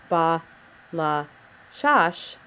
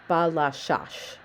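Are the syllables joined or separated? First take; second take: separated; joined. First: Each syllable is said separately with pauses between. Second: The syllables run together smoothly as one word. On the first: The speaker calls it wrong. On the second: The speaker calls it right.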